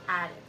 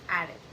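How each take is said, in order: No difference in how they are said.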